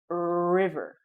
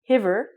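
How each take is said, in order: First: The word begins with an R sound. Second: The word begins with a breathy H sound. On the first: The speaker calls it right. "pronounce it like an R and say river" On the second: The speaker calls it wrong. "You don't say hiver"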